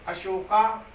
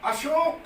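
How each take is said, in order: First: The word ends with an added long 'aa' vowel. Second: The word ends on the final consonant. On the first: The speaker calls it wrong. "अशोक का उच्चारण बिगाड़कर अशोका कर रहे हैं" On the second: The speaker calls it right. "अशोक शब्द है"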